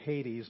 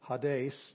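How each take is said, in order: First: It is pronounced the English way. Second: It is pronounced the Greek way. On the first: "that's the way we say it in English" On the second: "which is the way you'd say it in Greek"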